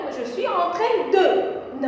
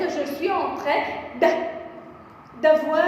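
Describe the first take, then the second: First: "de" said as its own full syllable. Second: "de" shortened to d, joined onto "avoir"; elided "d'avoir". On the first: Teacher showing students the form to avoid, full "de". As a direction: sound out the whole word "de" after "train". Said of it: "je ne vais pas mettre". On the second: Teacher showing students the correct form, elided "d'avoir". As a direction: run the d straight into "avoir", dropping its e. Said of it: "je vais mettre". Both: Shown as a demonstration.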